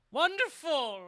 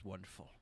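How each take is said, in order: First: High, loud theatrical proclamation; mock declaiming. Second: Said in the usual way. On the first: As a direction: declare it grandly to the whole arena, pitched way up. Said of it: "he's declaring everything is wonderful".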